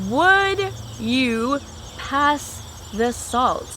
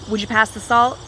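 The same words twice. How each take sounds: First: 'Would you' is said as two full words. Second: 'Would you' blends into one word, 'would ya'.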